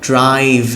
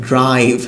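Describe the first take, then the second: The two takes are said the same way.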